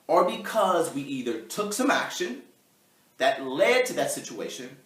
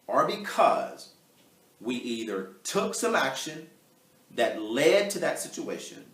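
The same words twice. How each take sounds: First: It is read at a normal pace. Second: It is read more slowly.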